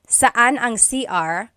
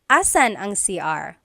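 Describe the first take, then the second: First: The first word is shortened, dropping its first syllable. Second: The first word is shortened, dropping its first sound. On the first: "they might even just say saan" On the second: "a short way to say it"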